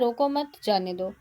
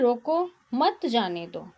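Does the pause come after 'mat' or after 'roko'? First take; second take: after mat; after roko. First: The pause comes after the word mat. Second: The pause comes after the word roko. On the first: Let them go without stopping them. "रोको मत के बाद है अल्प विराम चिन्ह का प्रयोग" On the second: Stop them and do not let them go. "रोको के बाद क्या है अल्प विराम का प्रयोग"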